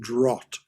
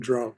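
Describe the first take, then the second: First: The vowel is an 'ah' sound, like 'draft'. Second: The vowel is an 'ow' sound, like 'cow'. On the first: The speaker calls it right. "That's pronounced draught" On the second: The speaker calls it wrong. "rather than drought"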